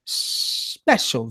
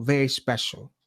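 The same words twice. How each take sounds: First: Breathy whisper on "special". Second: Said in the usual way. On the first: Shown as a demonstration. Teasing viewers about a special guest, whispered. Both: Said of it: "repeats special guest".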